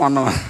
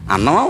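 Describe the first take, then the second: First: The word begins with a v sound. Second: The word begins directly with a vowel. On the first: The speaker calls it wrong. "అన్నానికి వన్నం అంటాం" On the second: The speaker calls it right. "అన్నమా వన్నమా? అన్నం"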